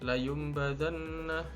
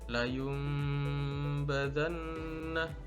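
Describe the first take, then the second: First: The nasal m sound is cut short. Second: The nasal m sound is held long. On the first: The speaker calls it wrong. "tidak boleh dibaca layum badanna, tapi harus ditahan" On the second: The speaker calls it right. "harus disertai dengan dengung"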